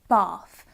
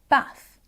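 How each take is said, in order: First: The vowel sounds like the vowel in car. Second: The vowel sounds like the vowel in cat. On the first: This is the speaker's own accent. "in my accent, this word, bath, the a is making the r sound in that word" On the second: This is how someone from the north says it. "in a more northern accent, maybe someone from Yorkshire ... the a in the word bath makes an a sound"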